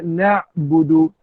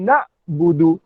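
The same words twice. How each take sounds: First: "nak budu" as na'budu, throat ain closing "nak"; slow "nak budu" with ain squeezed in the throat; correct ain. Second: "nak budu" with a glottal stop closing "nak"; wrong, hamzah. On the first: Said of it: "Maka baca nak budu". ("nak budu" dengan makhraj ain) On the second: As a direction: cut "nak" off at a hamzah, no ain. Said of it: "Bukan nak budu". ("nak budu" dengan hamzah) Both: Shown as a demonstration.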